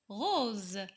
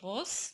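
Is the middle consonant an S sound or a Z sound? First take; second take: Z sound; S sound. First: The middle consonant is a buzzing Z sound. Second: The middle consonant is a hissing S sound. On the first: The speaker calls it right. "mais on dit" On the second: The speaker calls it wrong. "On ne peut pas dire"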